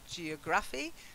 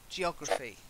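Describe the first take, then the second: First: The stress falls after the 'geo' part. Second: The stress falls on the 'geo' part. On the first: The speaker calls it wrong. "not geography" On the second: The speaker calls it right. "The stress is on geo"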